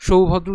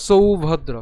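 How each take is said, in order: First: সৌভদ্র mispronounced with sh, as shoubhodro; wrong sibilant shown. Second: সৌভদ্র opening on a crisp dental sou; loud, careful সৌভদ্র, not shou. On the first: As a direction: open সৌভদ্র on sh. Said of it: "উচ্চারণ করলে হবে না". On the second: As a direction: stress the s and au in সৌভদ্র. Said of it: "কারণ এখানে দন্ত স রয়েছে". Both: Shown as a demonstration.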